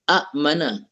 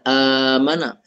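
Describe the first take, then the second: First: A glottal catch is heard before the m. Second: The catch becomes a long a vowel instead. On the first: "Asalnya a'mana" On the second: "dibadalkan kepada alif"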